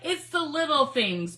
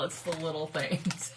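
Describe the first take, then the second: First: Slow, loud and high delight; slow loud delighted declaration; excited. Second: Said in the usual way. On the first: Real, not acted. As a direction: savour the joy. Delighted exclamation.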